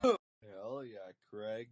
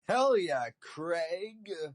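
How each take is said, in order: First: It is said flatly, without much enthusiasm. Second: It is said with strong enthusiasm.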